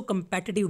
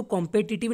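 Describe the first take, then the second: First: "कॉम्पिटिटिव" with a weak, short kəm at the start; correct pronunciation. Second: "कॉम्पिटिटिव" with a full open kɔm at the start; wrong pronunciation. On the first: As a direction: ease the first syllable of "कॉम्पिटिटिव" into a light kəm. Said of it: "इसको कॉम्पिटिटिव बोलना है". ("कॉम्पिटिटिव" का सही उच्चारण, शुरू में हल्का कम्) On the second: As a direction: stress the first syllable of "कॉम्पिटिटिव" as a wide kɔm. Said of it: "इसको कॉम्पिटिटिव नहीं बोलना है". ("कॉम्पिटिटिव" का गलत उच्चारण, शुरू में खुला कॉम्) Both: Shown as a demonstration.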